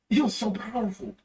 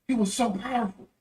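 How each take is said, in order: Both takes have the same delivery.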